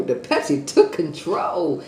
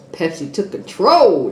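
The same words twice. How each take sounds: First: The Pepsi took control drawn out slowly, falling on control; slow repeat. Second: Pepsi took control said louder with a falling punch on control; punchy announcement. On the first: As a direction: repeat it slowly, savouring each word. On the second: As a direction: announce it loudly, landing on control. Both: Shown as a demonstration.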